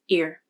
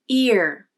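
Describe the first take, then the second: First: The vowel is shorter with flatter pitch. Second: The vowel is longer with more pitch movement. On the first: "Unstressed ear" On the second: "Stressed ear"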